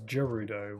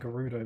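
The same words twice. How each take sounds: First: The word begins with a J sound. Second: The word begins with a hard G sound. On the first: The speaker calls it wrong. "with with a J sound" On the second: The speaker calls it right. "I feel like Gerudo makes more sense"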